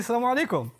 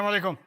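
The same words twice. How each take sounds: First: The greeting sounds warm and friendly. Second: The greeting sounds cold and unfriendly. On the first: The speaker shows respect and kindness. The speaker calls it right. "you can say it with a smile, you can say it respectfully, a warm look on your face" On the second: The speaker comes across as disrespectful. The speaker calls it wrong. "how you said it changed completely"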